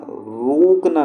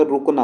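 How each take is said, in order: First: रोकना said as "roookna", the U stretched; long U. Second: रुकना with a quick, short U. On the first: Teacher showing the wrong form, long oo in रोकना. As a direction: draw out the first vowel of रोकना into a long oo. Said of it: "रोकना नहीं होता". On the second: Teacher giving the correct form, short U in रुकना. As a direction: keep the first vowel of रुकना brief. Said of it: "रुकना होता है". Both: Shown as a demonstration.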